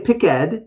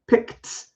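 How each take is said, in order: First: The ending is a voiced sound. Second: The ending is a voiceless t sound. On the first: The speaker calls it wrong. "I don't say picked" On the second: The speaker calls it right. "I actually say picked, and it's actually a non-voiced T sound"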